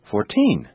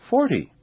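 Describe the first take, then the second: First: Put-on "fourteen" stressed on TEEN without dragging; natural final stress. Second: "forty" stressed on a high FOR, short ending; natural first-syllable stress. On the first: Teacher now saying them naturally, "fourteen" stressed on TEEN. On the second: Teacher now saying them naturally, "forty" stressed on FOR. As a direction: stress FOR in "forty" without dragging. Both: Shown as a demonstration. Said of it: "Now I'll say them naturally".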